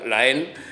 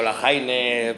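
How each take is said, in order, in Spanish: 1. El nombre se dice como 'en', con una vocal e. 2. El nombre se dice como 'haine', con h fuerte. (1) "se pronuncia la E N" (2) "o la JAINE"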